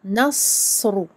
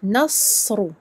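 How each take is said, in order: Both takes have the same delivery.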